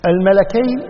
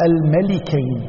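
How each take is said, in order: First: "الملكين" with an A vowel after the lam; fatha on the lam. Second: "الملكين" with an I vowel after the lam; kasra on the lam. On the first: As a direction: say "الملكين" as al-malakayn. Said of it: "بفتح اللام". ("الملكين" بفتح اللام) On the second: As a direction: say "الملكين" as al-malikayn. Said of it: "فتح اللام وبكسر". ("الملكين" بكسر اللام) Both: Shown as a demonstration.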